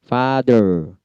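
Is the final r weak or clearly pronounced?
clear. The final r is clearly pronounced. "Kalau American R-nya wajib"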